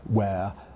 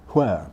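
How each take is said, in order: First: It begins with a plain w sound. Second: It begins with a breathy hw sound. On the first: This is the form more and more Americans use. "a plain W sound" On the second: This is the older American standard form. "what was previously regarded as the American standard"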